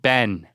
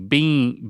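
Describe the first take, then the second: First: The vowel is open, as in set. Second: The vowel is long, as in see. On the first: "with the vowel in set"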